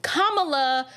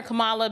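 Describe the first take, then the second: First: Kamala said KAH-muh-luh; stress on first syllable. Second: Kamala said kuh-MAH-luh; stress on second syllable. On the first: Host trying the harder version, Kamala stressed on the first syllable. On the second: Host explaining her habit, Kamala stressed on the middle syllable. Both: Shown as a demonstration. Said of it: "the way I emphasize certain syllables".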